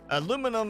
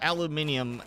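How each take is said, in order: First: It is said with four syllables, American style. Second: It is said with five syllables, British style. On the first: This is the name used in the US. "It's aluminum in the U S" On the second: This is the name used in most other places. "aluminium pretty much everywhere else"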